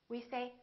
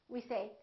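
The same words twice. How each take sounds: The two takes are said the same way.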